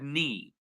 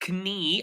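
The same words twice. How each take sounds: First: The word starts with an N sound. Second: The word starts with a K sound. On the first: The speaker calls it right. "I said knee" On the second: The speaker calls it wrong. "I did not say knee"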